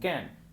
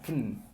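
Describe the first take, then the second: First: The vowel is a full, clear vowel. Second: The vowel is reduced to a weak schwa. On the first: "no suena como can" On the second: "suena como kn"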